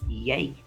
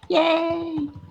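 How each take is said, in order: First: It is said quietly. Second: It is said loudly.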